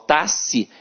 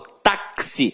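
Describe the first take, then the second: First: The x is said as one single sound. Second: The x is said as the two sounds ks. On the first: The speaker calls it wrong. "eu não falo táxi" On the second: The speaker calls it right. "eu falo táxi. Então o X aqui tem som de K S"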